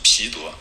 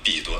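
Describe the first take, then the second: First: The name begins with an aspirated p sound. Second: The name begins with an unaspirated b sound. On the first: The speaker calls it right. "是皮多" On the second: The speaker calls it wrong. "我们常常读作比多"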